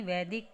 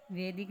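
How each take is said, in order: First: वैदिक with open ai, as vaidik; ai vowel. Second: वैदिक said as vedik; wrong e vowel. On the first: Teacher gives the correction, वैदिक starting vai. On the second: Teacher shows the mistake, वैदिक starting ve. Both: Shown as a demonstration. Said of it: "नहीं".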